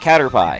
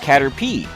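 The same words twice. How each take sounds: First: The last syllable sounds like the word pie. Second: The last syllable does not sound like pie. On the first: The speaker calls it wrong. "because P I E spells the word pie, right? So I would call it Caterpie" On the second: The speaker calls it right. "as it turns out, it's pronounced Caterpie"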